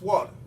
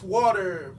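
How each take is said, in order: First: The word ends with an 'ah' sound. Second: The word ends with an 'er' sound. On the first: "the E R becomes an A" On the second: "for any standard English word containing an E R combination"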